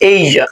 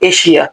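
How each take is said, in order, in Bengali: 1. এটা বলা হয় নেটিভ ইংরেজিভাষীরা যেভাবে বলে সেভাবে। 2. এটা বলা হয় বাংলাভাষীরা সাধারণত যেভাবে বলে সেভাবে। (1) "নেটিভরা বলে কি এইজা" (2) "আমরা বলি কি এশিয়া"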